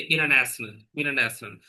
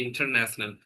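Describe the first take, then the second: First: "international" with the T dropped after the N; American "international", no T sound; American pronunciation. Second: "international" with the T fully sounded; British "international", keeping the T; British pronunciation. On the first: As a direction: say "international" American-style, like "innernational". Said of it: "But when it comes to American". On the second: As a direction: say "international" British-style, clear T after the N. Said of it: "in British it is okay". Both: Shown as a demonstration.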